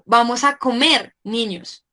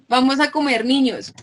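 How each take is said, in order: First: There is a pause before "niños". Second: It runs on without a pause before "niños".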